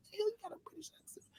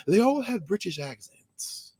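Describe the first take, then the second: First: Breathy secret whisper. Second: Said in the usual way. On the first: Acted. Telling the listener in a secret stage whisper. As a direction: let them in on it in a whisper.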